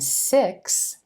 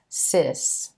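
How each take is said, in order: First: The x is said with both k and s. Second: The x is said as s alone. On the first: The speaker calls it right. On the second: The speaker calls it wrong.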